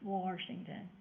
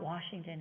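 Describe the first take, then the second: First: The word is said with an added R sound. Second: The word is said without an added R sound. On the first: "They say it with an R" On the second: "It's not Washington"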